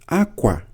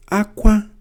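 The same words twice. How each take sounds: First: "Akwa" with a falling tone; akwa for cloth. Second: "Akwa" high and loud; akwa for cry. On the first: Teacher giving the tone of akwa, cloth. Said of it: "means cloth". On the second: Teacher giving the tone of akwa, to cry. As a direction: say "Akwa" on a high, ringing pitch. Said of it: "means to cry". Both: Shown as a demonstration.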